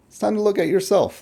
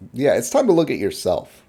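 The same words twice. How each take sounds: First: "look" pitched higher and hit hard; emphatic repeat. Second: Said in the usual way. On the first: Real, not acted. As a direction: repeat it, punching "look" up high.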